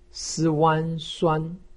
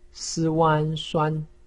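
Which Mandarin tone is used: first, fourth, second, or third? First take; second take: first; first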